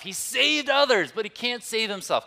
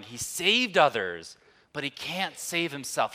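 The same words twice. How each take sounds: First: High, loud mocking jeer; sneering shout. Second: Restrained, read-out version of a jeer; sneering quote. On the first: Preacher acting out the rulers jeering Jesus on the cross, shouting mockingly. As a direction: shout the taunt high over a crowd. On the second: Retold or imitated. Preacher reading out the rulers' taunt at the cross, mildly sneering. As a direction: quote the taunt with only mild force. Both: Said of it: "sneered at him, shouting".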